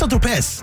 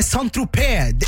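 First: The s sound in the name is pronounced. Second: The s sound in the name is silent. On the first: The speaker calls it wrong. "Ikke Saint-Tropez" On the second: The speaker calls it right. "Det er Saint-Tropez. Sätten er stum"

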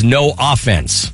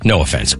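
First: The stress is on the first syllable. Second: The stress is on the second syllable. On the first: The team has no scoring. The speaker calls it right. "It says no offense" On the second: It is an apology for a rude remark. The speaker calls it wrong. "Oops, pronounced that wrong"

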